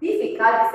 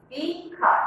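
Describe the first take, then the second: First: Said in the usual way. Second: "difficult" broken into separate syllables, dif-fi-cult; split into syllables. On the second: Shown as a demonstration. Teacher counting syllables for the class, "difficult" said in three parts. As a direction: say "difficult" syllable by syllable with small gaps. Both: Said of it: "Three syllable".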